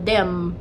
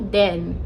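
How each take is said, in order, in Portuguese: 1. A palavra termina com som de M. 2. A palavra termina com som de N. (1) "eu falava como se tivesse um M no final" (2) "e não then"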